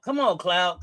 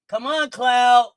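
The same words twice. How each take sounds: First: Said in the usual way. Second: Drawn-out, loud urging; urging on a player in foul trouble; slow shout. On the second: Real, not acted. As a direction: stretch it out and yell.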